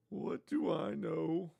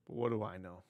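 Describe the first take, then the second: First: High, soft, drawn-out silly voice; mock clueless. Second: Low, soft throwaway question; muted aside. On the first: Host mocking himself for judging rich people, mock clueless. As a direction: stretch it out in a high put-on voice. Repeats it in a put-on voice. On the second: Real, not acted. Host doubting his own take on celebrities' cash, muted aside. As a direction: toss it off quietly, low in the voice.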